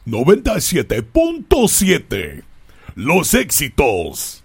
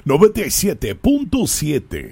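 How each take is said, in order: First: Slow, louder Spanish DJ announce; Spanish radio voice. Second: Booming Spanish DJ announce; Spanish radio voice. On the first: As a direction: stretch it out like a Latin station ID. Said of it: "That's my Spanish radio voice". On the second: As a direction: roll it out like a Latin radio host. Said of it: "my voice changes there. That's my Spanish radio voice". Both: Shown as a demonstration.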